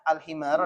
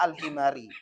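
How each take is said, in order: First: The word ends with an 'a' vowel. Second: The word ends with an 'i' vowel. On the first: The word is read as joined by a conjunction. The speaker calls it wrong. "Tidak boleh dibaca al-himar, tidak boleh" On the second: The word is read as governed by a preposition. The speaker calls it right. "wajib baca hatta al-himari"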